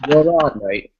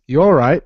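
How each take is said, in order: First: "You all right, mate?" in London accent, higher and louder. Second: A try at a British "You all right?" that misses; wrong British greeting. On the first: Shown as a demonstration. Brit showing Americans how London says "You all right, mate?". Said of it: "if you were from London". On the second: Retold or imitated. Americans trying out a British greeting, slightly off. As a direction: say "You all right?" with an off, almost Australian lilt. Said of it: "you're saying it wrong".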